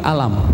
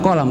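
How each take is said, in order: First: The word begins with a glottal stop. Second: The word begins with a deep q sound. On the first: "Mereka bilangnya ... alam" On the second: "bukan kolam"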